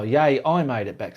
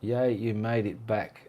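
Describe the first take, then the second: First: "I" stressed, the rest lighter. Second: Said in the usual way. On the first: Real, not acted. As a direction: lean on the word "I" as a correction. Corrects misread word with emphasis.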